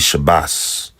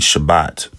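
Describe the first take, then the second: First: The word ends with an s sound. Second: The word ends with a t sound. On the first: "their dialect would say like bas" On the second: "the way that they say Shabbat"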